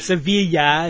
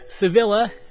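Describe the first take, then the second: First: The name is said with a Spanish pronunciation. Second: The name is said with an English pronunciation. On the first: The speaker calls it right. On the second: The speaker calls it wrong.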